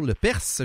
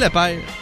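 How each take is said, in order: First: The name ends with an audible S sound. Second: The name ends without an S sound. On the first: The speaker calls it right. "Lepers, j'ai oublié de prononcer le S" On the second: The speaker calls it wrong. "j'ai oublié de prononcer le S"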